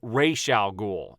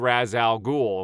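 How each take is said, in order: First: The first word is said like 'Ra's'. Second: The first word is said like 'Raz'. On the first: The speaker calls it right. "The proper way to say his name is Ra's al Ghul" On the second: The speaker calls it wrong. "That is not how you say Raz Al Ghul"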